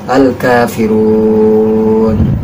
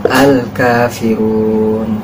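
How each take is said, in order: First: The final long vowel is held moderately long. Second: The final long vowel is held briefly. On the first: "empat harokat" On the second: "yang dua rokaat, eh dua harokat"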